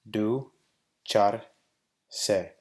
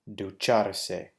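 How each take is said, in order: First: The word is split with pauses between syllables. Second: The word is said smoothly at normal speed. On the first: "break it down into syllables" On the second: "saying the word in Spanish at a normal pace"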